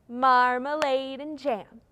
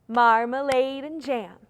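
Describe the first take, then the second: Both takes have the same delivery.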